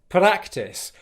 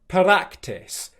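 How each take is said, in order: First: The R is tapped against the mouth roof. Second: The same.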